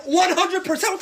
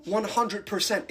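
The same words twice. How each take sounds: First: High, loud ONE HUNDRED PERCENT; emphatic outburst. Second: Said in the usual way. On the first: Acted. Second, emphatic answer to own question.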